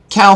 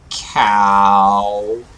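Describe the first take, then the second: First: The word is said in a normal voice. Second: The word is said in a funny voice. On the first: "You don't think of that as a funny word" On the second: "if I say it like this, cow, it's kind of funny"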